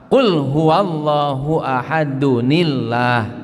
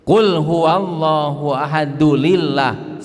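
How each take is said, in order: First: The words are linked with an N sound. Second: The words are linked with an L sound. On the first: The speaker calls it right. "dunillah bukan dulillah" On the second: The speaker calls it wrong. "salah total"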